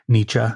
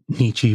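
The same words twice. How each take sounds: First: The name is said in its German way. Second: The name is said in an anglicized way. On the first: The speaker calls it right. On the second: The speaker calls it wrong.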